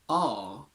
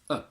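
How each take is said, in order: First: The word is said with a full vowel. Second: The word is said with a reduced vowel.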